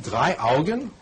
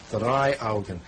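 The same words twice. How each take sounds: First: "Drei Augen" asked as a question, voice rising on "Augen". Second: "Drei Augen" said as a plain statement, voice falling on "Augen". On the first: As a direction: ask "Drei Augen" with a doubting rise at the end. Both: Shown as a demonstration. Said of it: "Ist das richtig?".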